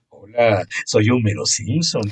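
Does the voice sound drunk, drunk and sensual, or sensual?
sensual. The voice sounds sensual, not drunk.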